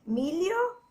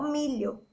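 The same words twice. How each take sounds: First: "Milho" pronounced like "mílio". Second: "milho" said with a palatal lh. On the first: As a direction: draw out "Milho" with an audible l-i glide. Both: Shown as a demonstration. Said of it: "se é L H ou se é L I".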